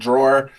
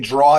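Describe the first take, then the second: First: It is said the general way, with two syllables. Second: It is said the Northeastern way, like draw. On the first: "instead of drawer" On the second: "I say draw"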